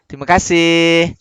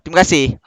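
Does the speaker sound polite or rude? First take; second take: polite; rude. First: It is said in a warm, polite tone. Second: It is said in a curt, impolite tone. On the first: The speaker is showing proper courtesy. The speaker calls it right. "Dia nak dapat dengan sopan ni dia kena ada dia punya intonasi dia" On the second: The speaker is not showing proper courtesy. The speaker calls it wrong. "Itu tak sopan"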